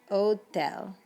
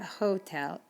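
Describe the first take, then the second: First: The h at the start is silent. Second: The h at the start is pronounced. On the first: The speaker calls it right. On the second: The speaker calls it wrong. "not hotel"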